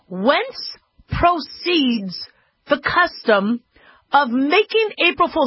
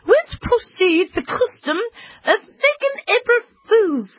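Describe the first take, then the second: First: It is read in the speaker's normal accent. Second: It is read in a put-on British accent.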